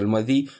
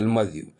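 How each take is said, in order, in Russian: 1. Слово заканчивается на простой звук 'ee'. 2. Слово заканчивается на звук 'yoo'. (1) "многие называются аль-мади" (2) "правильно называется аль-мадью"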